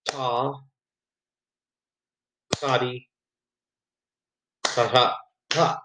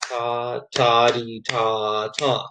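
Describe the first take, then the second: First: "ta, ta, dee" with long, uneven gaps between syllables; uneven beat. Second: "ta, ta, dee, ta, ta" in even, evenly spaced syllables; steady beat. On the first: Teacher showing students a bad, uneven beat with long gaps. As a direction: stumble through the rhythm, dragging some beats. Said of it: "that wouldn't be a very good beat". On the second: Teacher showing students a steady, even rhythm. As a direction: keep every syllable evenly on the pulse. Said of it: "I have to make sure it stays steady". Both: Shown as a demonstration.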